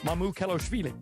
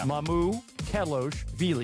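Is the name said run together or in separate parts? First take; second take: run together; separate parts. First: The name is said quickly as one unit. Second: The name is broken into three separate parts. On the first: "and then you just speed it up" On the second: "think of it in those three parts"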